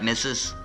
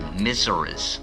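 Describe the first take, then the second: First: The word is said as 'missus'. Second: The word is said as 'misseris'.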